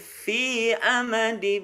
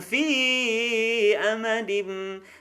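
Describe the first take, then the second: First: The vowel in 'fi' is kept short. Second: The vowel in 'fi' is drawn out long. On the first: The speaker calls it right. "cukup ... Jadi fi-nya tidak kepanjangan" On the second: The speaker calls it wrong. "jangan fi amadim"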